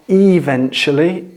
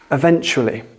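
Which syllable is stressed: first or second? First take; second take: first; second. First: The stress is on the first syllable. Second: The stress is on the second syllable. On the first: The speaker calls it wrong. "it's not eventually" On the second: The speaker calls it right. "The stress is on the second syllable"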